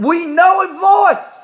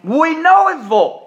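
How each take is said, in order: First: Preaching emphasis. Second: "We know his voice" high, stress on "know"; preaching emphasis. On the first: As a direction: proclaim it to the congregation. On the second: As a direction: drive the word home. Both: Real, not acted. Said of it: "preacher repeats for emphasis".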